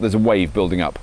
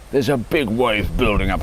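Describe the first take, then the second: First: Said in the usual way. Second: Slow, lightly put-on doom voice; mock-ominous. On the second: Man warning of his urge to buy, mock-ominous. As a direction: stretch it out like a half-joking warning.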